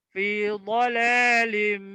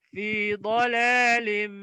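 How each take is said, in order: Both takes have the same delivery.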